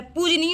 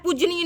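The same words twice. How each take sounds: First: पूजनीय as pooj-nee; correct form shown. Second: पूजनीय as pooj-nee-ye; wrong form shown. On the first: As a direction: say पूजनीय short, no y after j. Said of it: "पूजनीय होता है". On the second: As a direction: add a trailing ye to पूजनीय. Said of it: "पूजनीय नहीं होता है". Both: Shown as a demonstration.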